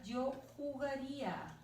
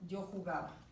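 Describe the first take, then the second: First: Yo jugaría said slowly and higher, ending ía drawn out; teacher spells out the ía of jugaría for the class; ending ía stressed, slow. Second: Yo jugaba, leaning on the ending aba; teacher lets the ending aba of jugaba stand out; ending aba stressed. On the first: Teacher contrasts the tense ending for students, slow and clear. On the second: To the class, teacher contrasts the ending, aba stressed. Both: Shown as a demonstration. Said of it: "Vean la diferencia".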